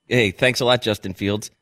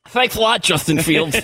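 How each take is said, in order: First: It is said in his normal voice. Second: It is said in a put-on joke voice.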